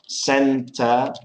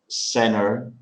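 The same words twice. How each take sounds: First: The T after the N is clearly pronounced. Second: The T after the N is dropped.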